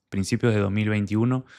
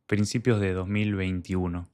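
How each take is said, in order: Both takes have the same delivery.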